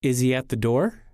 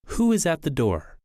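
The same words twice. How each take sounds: First: Yes-no question climbing on "door"; rising intonation. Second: Wh-question dropping on "door"; falling intonation. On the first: Teacher contrasting two question tunes, rising intonation. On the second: Teacher contrasting two question tunes, falling intonation. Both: Shown as a demonstration. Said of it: "Listen to the difference between rising and falling intonation".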